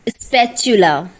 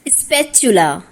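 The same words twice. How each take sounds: No difference in how they are said.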